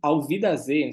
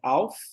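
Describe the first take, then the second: First: The words run together and the f nearly disappears. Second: Each word is said separately, with a clear f. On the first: "uma palavra entra na outra... você quase que come esse F" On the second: "falando marcadinho, é auf, aí Wiedersehen"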